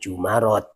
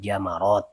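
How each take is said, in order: First: The first vowel is an 'u' sound. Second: The first vowel is an 'a' sound. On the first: The speaker calls it wrong. "bukan jumarot" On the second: The speaker calls it right. "maka mimnya diharokati jamarot"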